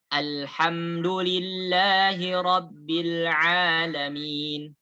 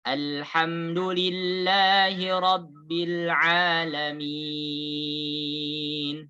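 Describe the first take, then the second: First: The last long vowel is held two beats. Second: The last long vowel is held six beats.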